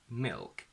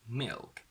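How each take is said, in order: No difference in how they are said.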